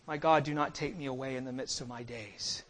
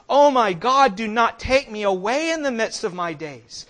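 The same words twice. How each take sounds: First: Low, soft, solemn plea; hushed prayer. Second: Loud, impassioned plea to God; crying out in prayer. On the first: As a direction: pray it quietly, voice dropped right down. Voicing Christ's prayer to the Father. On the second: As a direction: cry it out as a desperate prayer. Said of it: "we cry out to him". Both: Acted.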